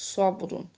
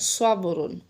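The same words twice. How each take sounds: First: The first s sound is heavy and emphatic. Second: The same.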